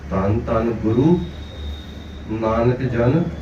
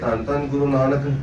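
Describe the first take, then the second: First: There is a pause after Guru. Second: Guru Nanak is read together without pause.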